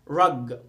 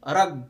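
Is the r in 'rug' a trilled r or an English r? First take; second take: English; trilled. First: The r is a smooth English r. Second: The r is a trilled Arabic r. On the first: The speaker calls it right. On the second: The speaker calls it wrong.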